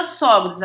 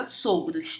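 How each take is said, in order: First: Sogros with open stressed o, "sógros". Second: Sogros with closed stressed o, "sôgros". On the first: Teacher warning of the pegadinha, open o in sogros. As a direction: open the first vowel of sogros, as ó. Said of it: "ela vira sogros". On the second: Teacher giving the exception's right plural, closed o in sogros. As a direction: keep the first vowel of sogros closed, as ô. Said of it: "Ela não vira sogros". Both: Shown as a demonstration.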